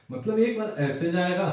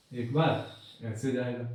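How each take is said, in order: First: Said in the usual way. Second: Slow, drawn out to trace the wave; slow demo. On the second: Shown as a demonstration. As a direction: stretch एक बार ऐसे जाएगा out slowly as if drawing it.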